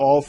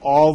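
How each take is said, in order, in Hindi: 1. यह शब्द बिल्कुल 'off' जैसा सुनाई देता है। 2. यह शब्द 'off' जैसा नहीं सुनाई देता। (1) "आम रूटीन में हम इसको ऑफ ही बोल जाते हैं" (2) "इसका राइट प्रोनाउंसिएशन जो है वो ऑफ है"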